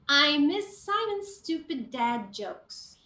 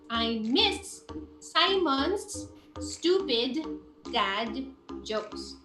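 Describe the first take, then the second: First: Matching sounds between words are joined smoothly. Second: Matching sounds between words are said separately. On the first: The speaker calls it right. "I will link it so that it will flow nicely" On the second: The speaker calls it wrong. "if you don't link it, it will sound like this"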